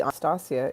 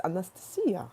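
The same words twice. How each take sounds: First: "Anastasia" said the common English way; English pronunciation. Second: "Anastasia" as ah-nuh-stuh-SEE-ya; native pronunciation. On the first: Correcting how people say the name, anglicized "Anastasia". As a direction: give "Anastasia" its everyday anglicized sound. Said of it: "it's not really Anastasia". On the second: Teaching the real name, "Anastasia" stressed on SEE. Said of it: "it's Anastasia". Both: Shown as a demonstration.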